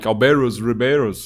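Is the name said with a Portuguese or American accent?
American. The name is said with an American accent.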